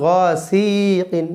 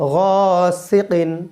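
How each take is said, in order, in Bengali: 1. দ্বিতীয় সিলেবলের স্বরধ্বনিটি দীর্ঘ করে টানা হয়। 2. দ্বিতীয় সিলেবলের স্বরধ্বনিটি হ্রস্ব রাখা হয়। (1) "সি কোনো টান নেই, অনেকে বলে গাসিকিন, তাহলে ভুল হবে।" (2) "সি কোনো টান নেই"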